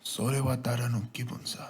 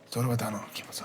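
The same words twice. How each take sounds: First: The phrase is said at a slower speed. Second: The phrase is said at a faster speed. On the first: The speaker calls it wrong. "How quickly can you say it?" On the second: The speaker calls it right. "faster, faster"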